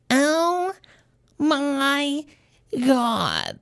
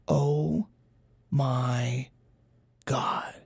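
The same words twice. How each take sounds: First: It is said in a more nasal voice. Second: It is said in a plain, less nasal voice.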